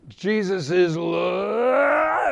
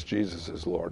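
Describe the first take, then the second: First: Wrench it out in a long shout; shouted declaration. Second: Much lower and softer "Jesus is Lord"; quiet relief. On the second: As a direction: say it calmly, the fight over. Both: Retold or imitated. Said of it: "And he goes".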